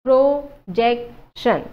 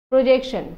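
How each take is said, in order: First: projection in three slow, emphatic pieces; syllable by syllable. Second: Said in the usual way. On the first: Shown as a demonstration. Teacher showing three syllables, projection slowly broken up. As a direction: punch each syllable of projection separately. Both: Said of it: "এই তিনিটা syllable আছে".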